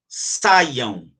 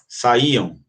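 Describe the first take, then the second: First: The word is said in two syllables. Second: The word is split into three syllables. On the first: "saiam duas" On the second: "saíam três"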